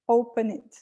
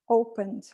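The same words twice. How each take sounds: First: The ending is an extra syllable with a vowel. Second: The ending is a plain d with no vowel. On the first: The speaker calls it wrong. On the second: The speaker calls it right.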